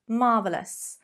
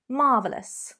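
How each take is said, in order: First: The word is said with three syllables. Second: The word is said with three syllables.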